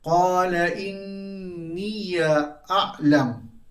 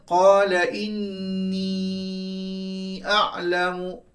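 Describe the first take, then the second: First: The ya after inni is voiced with an a vowel. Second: The ya after inni carries no vowel. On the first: "Qalun akan membaca dengan fathah" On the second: "asalnya qala inni a'lamu. Qalun tak baca begitu"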